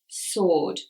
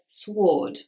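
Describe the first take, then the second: First: The W sound is not pronounced in the word. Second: The W sound is pronounced in the word. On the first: The speaker calls it right. "W is not pronounced if it comes before R" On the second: The speaker calls it wrong. "Many people may pronounce this sword"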